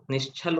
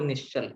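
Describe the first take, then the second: First: निश्चल said with aspirated chh, as निश्छल. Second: निश्चल with a plain ch, no puff of air; unaspirated ch. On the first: Teacher separating two confused words, निश्चल with aspirated chh. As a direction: puff air on the ch of निश्चल to make chhal. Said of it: "छल रहित". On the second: Teacher separating two confused words, निश्चल with unaspirated ch. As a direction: keep the ch of निश्चल unaspirated, as in chal. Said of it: "अलग-अलग शब्द है". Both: Shown as a demonstration.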